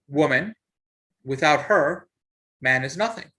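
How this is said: There is a pause after "her".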